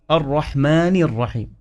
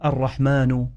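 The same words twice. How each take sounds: First: الرحمن ending in i; kasra on الرحمن. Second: الرحمن ending in u; mistaken vowel ending. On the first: Teacher modelling the correct vowel, الرحمن ending in -ni. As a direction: say الرحمن as ar-rahmani. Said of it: "الرحمن بالكسرة". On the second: Teacher showing a common error, الرحمن ending in -nu. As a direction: misread الرحمن as ar-rahmanu. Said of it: "خطأ، الرحمن بالكسرة". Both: Shown as a demonstration.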